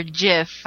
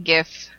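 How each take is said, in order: First: "gif" said like "jiff"; "gif" with a soft G, as in "gem". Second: "gif" with a hard G; "gif" starting like "give". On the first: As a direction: say "gif" with a J sound. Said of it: "is the proper pronunciation". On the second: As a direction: say "gif" with the G of "gift". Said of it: "I suppose is the proper pronunciation". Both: Shown as a demonstration.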